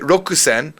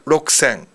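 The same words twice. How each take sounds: First: The ku syllable is fully pronounced. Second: The ku syllable is nearly silent. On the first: The speaker calls it wrong. "You really you really wouldn't say rokusen" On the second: The speaker calls it right. "it's more like rokusen"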